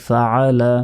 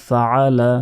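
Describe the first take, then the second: Both takes have the same delivery.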